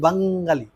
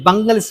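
First: The word is said plainly, without extra stress. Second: The word is said with heavy, forceful stress. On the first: This is how most other people say it. "দেখবেন অন্য সব বাঙালি বলবে না, বলবে বাঙালি" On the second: It signals political nationalism. "এই যে বাঙালি stress দিয়ে বলবে যখন"

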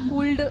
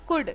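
First: The word is said with an audible L sound. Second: The word is said with no L sound. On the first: The speaker calls it wrong. "कूल्ड नहीं होता guys" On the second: The speaker calls it right. "Your एल is silent"

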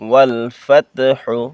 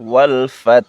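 First: The word ends with a final 'u' vowel. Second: The word ends on the bare consonant. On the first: The reading continues without stopping. "হারফেশ হু" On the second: The reader stops at this word. "ওয়াকফ করিলে"

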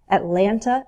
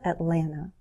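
First: The T sound is clearly pronounced. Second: The T sound is dropped.

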